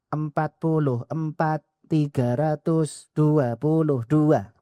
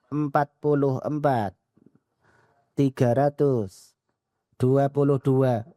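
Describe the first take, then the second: First: The three numbers are run together in one go. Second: Each number is read separately with pauses between. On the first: "nyebutnya langsung tiga" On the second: "boleh dibaca satu-satu"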